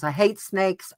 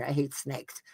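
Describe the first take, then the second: First: Said in the usual way. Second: Hushed. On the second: Real, not acted. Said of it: "Oh my God".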